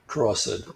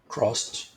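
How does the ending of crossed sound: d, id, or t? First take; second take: id; t. First: The ending sounds like id. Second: The ending sounds like a t. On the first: The speaker calls it wrong. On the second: The speaker calls it right.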